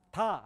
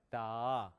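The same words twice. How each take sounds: First: 다 short and higher, airy onset; Korean 다. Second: Low, long voiced "daaa" for 다; American-style 다. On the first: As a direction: say 다 briskly the Korean way. (한국식으로 짧고 높게 발음한 다) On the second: (미국식으로 낮고 길게 끄는 다) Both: Shown as a demonstration. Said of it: "아니에요".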